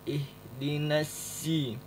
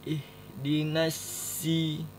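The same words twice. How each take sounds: The two takes are said the same way.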